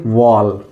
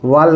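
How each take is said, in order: First: The vowel is rolled a little. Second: The vowel is plain, without rounding. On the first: The speaker calls it right. "थोड़ा सा रोल करके पढ़ेंगे" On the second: The speaker calls it wrong. "वॉल नहीं पढ़ेंगे"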